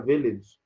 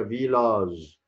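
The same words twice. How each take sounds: First: فيليج with short second vowel and final j; فيليج said the English way, stress up front; English pronunciation. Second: فيلاج with long a and final zh; فيلاج said slowly, last syllable stretched; French pronunciation. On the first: Teacher contrasts it for learners, English pronunciation. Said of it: "هي فيليج بالإنجليزي". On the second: Teacher models the word for learners, French pronunciation. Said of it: "بالفرنسي اسمها فيلاج". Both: Shown as a demonstration.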